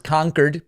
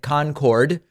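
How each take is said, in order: First: It sounds like the New Hampshire town's name. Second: It sounds like the name of the supersonic jet. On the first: The speaker calls it right. "but it is Concord" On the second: The speaker calls it wrong. "like the uh, infamous supersonic jet"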